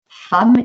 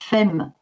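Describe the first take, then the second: First: The word is said with its usual irregular vowel. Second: The word is sounded out following its letters. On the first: The speaker calls it right. "il faut apprendre que ça se lit femme" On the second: The speaker calls it wrong. "et non pas femme"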